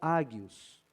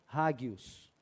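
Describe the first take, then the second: First: The word begins directly with a vowel. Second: The word begins with a breathy h sound. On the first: "ou ágios" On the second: "tenho ouvido as duas pronúncias e vou preferir a hagios"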